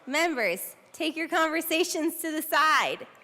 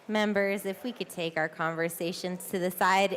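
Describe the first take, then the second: First: It is said louder and more forcefully. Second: It is said at normal, softer volume.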